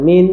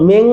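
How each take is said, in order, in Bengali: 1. শব্দটি একটি সাধারণ 'n' ধ্বনি দিয়ে শেষ হয়। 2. শব্দটি একটি নাসিক 'ng' ধ্বনি দিয়ে শেষ হয়। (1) "ওয়াজিব গুন্নার মতো" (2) "মিং বলা যাবে না"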